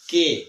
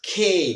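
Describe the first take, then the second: First: The first consonant has no puff of air. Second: The first consonant has a strong puff of air. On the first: The speaker calls it wrong. "But wrong" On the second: The speaker calls it right. "এটাকে আমরা বলবো খে"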